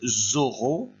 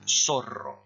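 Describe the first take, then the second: First: It begins with a buzzing z sound, French style. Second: It begins with a hissing s sound, Spanish style. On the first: "En français, vous dites zorro" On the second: "là on dit zorro"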